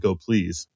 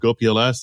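First: PLS is said as the word please. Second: PLS is spelled out as separate letters. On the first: The speaker calls it right. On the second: The speaker calls it wrong.

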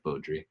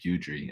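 First: The first syllable lacks the 'byoo' sound. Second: The first syllable sounds like 'byoo' in beautiful. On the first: The speaker calls it right. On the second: The speaker calls it wrong.

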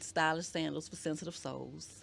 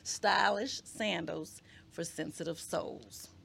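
First: The phrase is said at a quicker pace. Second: The phrase is said at a slower pace.

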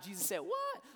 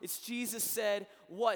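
First: It is said with a sassy, incredulous attitude. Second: It is said flatly, without attitude.

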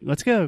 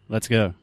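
First: It is said with lively, natural intonation. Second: It is said with flat, plain intonation.

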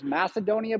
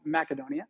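First: It is said with a common American pronunciation. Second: It is said with the original Greek pronunciation. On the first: "That's the way a lot of Americans pronounce it" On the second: "the original Macedonians called it Macedonia"

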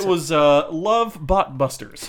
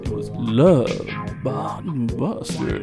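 First: It is said in a normal speaking voice. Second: It is said in a low, sultry put-on voice.

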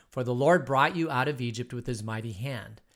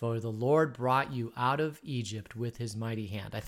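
No difference in how they are said.

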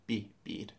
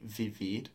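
First: It starts with a soft B-like sound. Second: It starts with a hard English V sound. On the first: The speaker calls it right. "They pronounce it more like a B" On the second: The speaker calls it wrong. "They don't say vivir"

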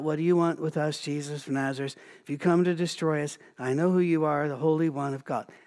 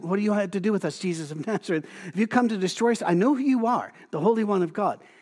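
First: It is read flatly, without feeling. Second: It is read with panicked, frightened emotion.

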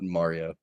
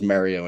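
First: Mario is said with a standard accent. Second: Mario is said with a Philadelphia accent. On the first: "and not Mario" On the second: "I'm a weird Philadelphian that says Mario"

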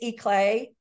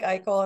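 First: The name ends with a 'clay' sound. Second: The name ends with a 'kel' sound. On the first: "It's Eclay" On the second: "but it looks like Eichel"

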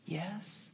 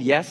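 First: It is said sheepishly and unsure. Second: It is said boldly and confidently.

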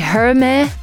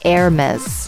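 First: The initial H sound is pronounced. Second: The initial H sound is silent. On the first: The speaker calls it wrong. "It starts with an H, so a lot of people say" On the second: The speaker calls it right. "It's actually"

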